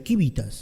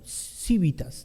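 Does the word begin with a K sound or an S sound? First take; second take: K sound; S sound. First: The word begins with a hard K sound. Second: The word begins with a soft S sound. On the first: This is how Latin was pronounced in that era. "parece ser que el latín se pronunciaba así en esa época, como casi como Q" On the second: This is how it is pronounced today. "nosotros lo pronunciamos como civitas"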